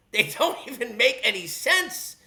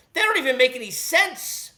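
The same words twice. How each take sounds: First: Slow, laughing repeat with stress on "don't"; slower with laugh. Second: Said in the usual way. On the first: Real, not acted. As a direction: lean on "don't" and slow down, chuckling.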